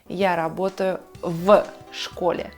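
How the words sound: A pause separates the preposition from the noun. The speaker calls it wrong.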